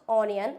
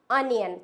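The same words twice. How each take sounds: First: "onion" with an open "aw" start; wrong pronunciation. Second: "onion" starting with short "uh"; correct pronunciation. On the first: Teacher warns against a mistake, "onion" as aw-ni-an. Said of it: "not onion". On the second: Teacher corrects learners, "onion" as un-yan. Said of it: "ये होता है it's onion". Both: Shown as a demonstration.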